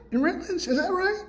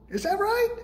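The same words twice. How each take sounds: First: Much higher mock-incredulous rise again on right; sarcastic disbelief; sarcastic question. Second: Much higher, mock-incredulous rise; sarcastic disbelief; sarcastic question. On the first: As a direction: lift it high, doubting. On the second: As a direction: toss it up high in disbelief. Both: Mocking rhetorical question.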